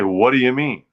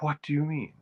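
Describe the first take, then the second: First: 'What' starts with a plain w sound. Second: 'What' starts with a breathy hw sound. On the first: "They don't say" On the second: "They say, ... put the H back in the what"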